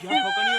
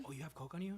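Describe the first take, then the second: First: A much higher, louder squeal of the question; stranger's question, squealed high. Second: A quiet, breathy laughing question; the stranger's question slips out through a quiet laugh; stranger's question, half laughing. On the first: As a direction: shriek the question up high in mock shock. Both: Retold or imitated. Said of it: "They said it with a straight face".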